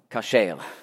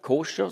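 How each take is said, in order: First: The first vowel is an 'a' sound. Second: The first vowel is an 'o' sound. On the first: The speaker calls it right. "sondern kasher. Im Französischen spricht man das auch korrekt aus" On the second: The speaker calls it wrong. "Auf Französisch sagt man nicht koscher"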